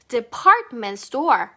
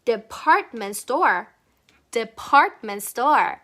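First: Department store very slow, T's dropped, store stressed; T-less department store. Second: Department store very slow, T barely said, store stressed; soft T. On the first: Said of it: "T를 과감히 버려주세요". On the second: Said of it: "T는 너무 강조하지 말아보자". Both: Shown as a demonstration.

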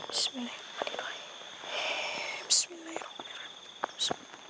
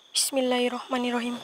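First: A barely audible murmured invocation; whispered prayer. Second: Said in the usual way. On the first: Real, not acted. Ghost hunter whispers a prayer to lock the spirit. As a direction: breathe the prayer with no voice at all, slowing on the second one.

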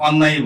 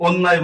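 First: অন্যায়ই with an open "aw" at the start; অন্যায়ই as "awnnay-i", not "onnay"; natural-vowel demo. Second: অন্যায় said with a closed "o", as "onnay"; অন্যায় mispronounced to start like "oh"; wrong-vowel demo. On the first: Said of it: "অন্যায়ই বলি". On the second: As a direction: round the first vowel of অন্যায় into ও. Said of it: "অন্যায় বলি না". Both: Shown as a demonstration.

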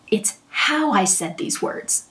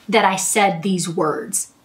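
First: Slow and soft, with "how" stressed and falling at the end. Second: Slow, with "that" stressed and falling at the end. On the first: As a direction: lean on "how" and keep it quiet and slow. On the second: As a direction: lean on "that" and say it slowly. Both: Shown as a demonstration.

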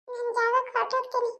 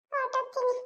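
First: Said in the usual way. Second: Softer, distant, echoing away; a ghost's farewell echoing into the distance; fading ghost echo. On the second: Acted. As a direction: let the word drift off like a departing spirit.

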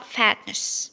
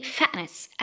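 First: "fatness" with a released T; British FATNESS. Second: "fatness" with a glottal stop for T; slow "fa'ness"; American FATNESS. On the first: Teacher showing British "fatness", clear-T pronunciation. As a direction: sound the T in "fatness". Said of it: "في البريطاني هيتنطق". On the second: Teacher repeating American "fatness", glottal-T pronunciation. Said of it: "زي الهمزة". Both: Shown as a demonstration.

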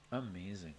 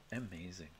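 No difference in how they are said.

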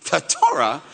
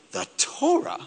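First: Indignant repeat. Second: Incredulous. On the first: Angels repeat it, falling. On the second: Angels shocked by Moses' request. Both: Acted.

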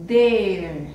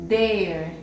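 First: "there" louder and falling, stretched; accented there. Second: Said in the usual way. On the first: Shown as a demonstration. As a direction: hit "there" with force and stretch it. ("there" con más fuerza y alargado) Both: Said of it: "la diferencia es la entonación".

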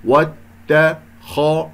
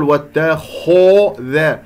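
First: "واتخذ" in slow syllables, only the خ heavy; correct light and heavy. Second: "واتخذ" with an over-rounded "kho" between spread syllables; over-shape the lips through "واتخذ", rounding the خ; exaggerated mouth movement. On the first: Teacher modelling the right way, slow separated "واتخذ". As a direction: keep ت and ذ thin in "واتخذ", خ full. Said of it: "لا أقول واتخذ". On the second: Teacher showing a mistake, overdone rounded خ in "واتخذ". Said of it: "أعمل حركات في الفم". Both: Shown as a demonstration.

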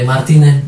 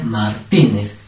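First: Said in the usual way. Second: "Martínez" split before a strong -tí-; stress on middle syllable. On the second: Shown as a demonstration. Teacher shows the greater force of voice, stressing -tí- in "Martínez". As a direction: say Mar, then punch TÍ in "Martínez". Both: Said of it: "¿Cómo sería?".

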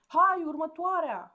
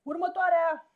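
First: Loud, high and slow call; mocking loud echo of the call; repeated shout. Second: Very loud, high bellow echoing out; a cavernous shout from inside the capsule. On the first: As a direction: drag the shout out lazily. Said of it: "a repetat Coco". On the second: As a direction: bark the next one in. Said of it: "a strigat Krill dinăuntru". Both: A narrator's reading.

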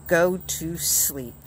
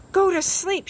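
First: Said in the usual way. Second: Excited shout. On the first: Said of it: "Toad wrote on the ground". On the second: A narrator's reading. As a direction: call it out gladly, the last thing on his list. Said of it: "shouted Toad".

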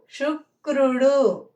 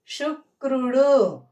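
No difference in how they are said.

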